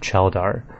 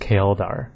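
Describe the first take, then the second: First: The name starts with a 'ch' sound. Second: The name starts with a 'k' sound. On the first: The speaker calls it wrong. "I always said Cheldar" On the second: The speaker calls it right. "it's actually pronounced Kaeldar. So like K- Kale"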